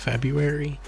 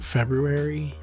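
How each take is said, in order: First: The first R sound is left out. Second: The first R sound is clearly pronounced. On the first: The speaker calls it right. "the correct pronunciation is February" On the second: The speaker calls it wrong. "I always pronounce it February, which makes me sound really weird"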